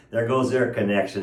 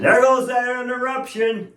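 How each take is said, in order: First: Said in the usual way. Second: Higher, ringing exclamation on "goes"; exclaimed. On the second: Shown as a demonstration. Preacher exclaiming to the church, higher and ringing. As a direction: fling "goes" up high like a preacher's cry.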